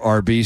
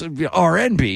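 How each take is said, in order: First: It is said as two letters, with no 'and'. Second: It is said with 'and' between the letters. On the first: The speaker calls it wrong. "don't say your RB station" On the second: The speaker calls it right. "get it right. It's RNB"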